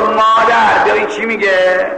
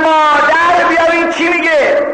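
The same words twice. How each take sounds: First: Milder imitation of the cry; mock call. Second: High, sustained yell for mother; full acted shout. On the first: Preacher imagining our girls calling mother, half-hearted mock call. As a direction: call to mother, raised but short of a yell. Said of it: "اگر از دخترای ما بودن میگفت". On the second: Pure girl calling her mother for help, full shout. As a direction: shout it high all the way through. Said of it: "داد زد".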